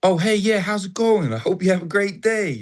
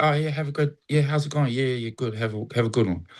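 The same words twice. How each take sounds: First: Wholehearted American greeting. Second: Box-ticking pleasantry. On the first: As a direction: greet a stranger as if delighted to see them. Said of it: "But in America, it's like". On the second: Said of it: "a box ticker". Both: Retold or imitated.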